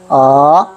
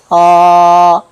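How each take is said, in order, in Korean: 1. 음높이가 낮은 데서 높은 데로 올라가요. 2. 음높이가 처음부터 끝까지 높고 평평하게 유지돼요. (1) "밑에서 위로" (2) "끝까지 평평하게 가야 됩니다"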